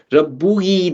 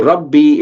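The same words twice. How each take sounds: First: Rabbuhi with the u kept before the final i; awkward pronunciation. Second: Rabbi with the u dropped, straight into long i; smoother pronunciation. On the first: Teacher shows what jars in Arabic, awkward Rabbuhi with both vowels. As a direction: sound out Rabbuhi, both end vowels separate. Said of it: "doesn't really make sense to the Arabic tongue". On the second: Teacher shows the smoother form, Rabbi ending in one ee sound. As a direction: run Rabbi smoothly from double b into ee. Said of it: "is more smoother pronunciation". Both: Shown as a demonstration.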